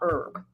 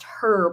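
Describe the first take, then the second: First: The initial h sound is dropped. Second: The initial h sound is pronounced. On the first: It is the garden plant. The speaker calls it wrong. "not herb as in like an herb for a garden" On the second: It is the nickname short for Herbert. The speaker calls it right. "It's herb as in short for Herbert"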